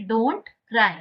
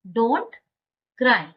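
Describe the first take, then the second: First: Said in the usual way. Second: Loud rising "don't", a pause, then "cry"; word-by-word model. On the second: Shown as a demonstration. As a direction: split "don't" and "cry" clearly. Teacher repeats it word by word.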